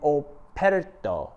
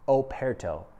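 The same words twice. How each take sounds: First: The word is said in an odd accent. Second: The word is said in a normal accent.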